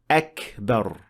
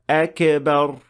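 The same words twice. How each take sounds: First: The k is released with a breathy puff. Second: The k is released with a bouncing echo. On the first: The speaker calls it right. "it should be pronounced with hams" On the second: The speaker calls it wrong. "The most common mistake for kaf is applying qalqala on it"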